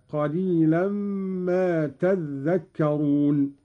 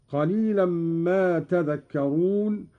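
First: "تذكرون" with a doubled, held ذ; doubled dhal. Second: Said in the usual way. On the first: Shown as a demonstration. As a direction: lean slowly on a geminated ذ in "تذكرون". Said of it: "بتشديد الذال هكذا". (تشديد الذال في «تذكرون»)

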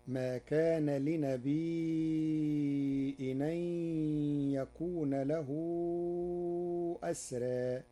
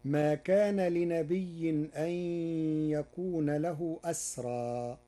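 First: "لنبي" said li-nabii'in, long ii then hamza. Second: "لنبي" said li-nabiyyin, doubled y; "لنبي" as li-na-BIY-yin, running into the next word; reading without hamza. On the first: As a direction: chant "لنبي" with a long held ii, then a glottal stop. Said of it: "بإسكان الياء وبعدها همز". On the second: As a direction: chant "لنبي" with a doubled y and no glottal stop. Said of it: "قرأ ورش كلمة لنبي". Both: Shown as a demonstration.

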